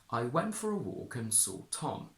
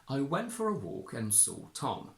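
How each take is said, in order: First: The intonation on Tom is strong. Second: The intonation on Tom is strong.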